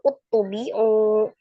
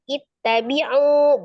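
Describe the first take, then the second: First: The word begins with a u vowel. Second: The word begins with an i vowel. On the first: The speaker calls it wrong. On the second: The speaker calls it right. "kita kasih harokat kasroh"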